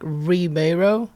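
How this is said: The name is said with an American pronunciation. "in American kind of sounds like Ribeiro"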